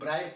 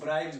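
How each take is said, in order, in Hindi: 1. शब्द का अंत s ध्वनि से होता है। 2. शब्द का अंत z ध्वनि से होता है। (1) "कुछ कुछ सौ भी बोल देते हैं" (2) "जो सही प्रोनाउंसिएशन है उसको बोलते हैं। जैसे इसको ब्राइब्स बोलते हैं"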